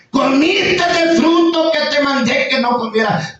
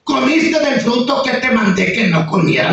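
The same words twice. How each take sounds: First: Higher, slow, solemn God voice; God rebuking Adam, slow and raised; God speaking. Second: Lightly voiced God, a bit raised; God questioning Adam, barely put on; God speaking. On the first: Retold or imitated. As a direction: draw each word out like God judging. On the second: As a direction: ask it with a hint of divine authority. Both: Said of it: "le dijo Dios".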